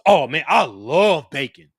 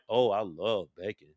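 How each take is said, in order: First: It sounds genuinely enthusiastic. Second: It sounds flat and unconvinced.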